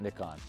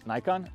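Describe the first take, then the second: First: The word is said with a non-American pronunciation. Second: The word is said with an American pronunciation. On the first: The speaker calls it wrong. "not Nikon" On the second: The speaker calls it right. "I say things like an American. Nikon"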